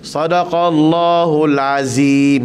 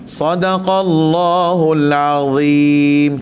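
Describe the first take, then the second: First: The consonant is a plain z, tongue not out. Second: The consonant is a thick dh, tongue out. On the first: The speaker calls it wrong. "Lidah tak keluar langsung" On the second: The speaker calls it right. "Sepatutnya kena-kena keluar dha"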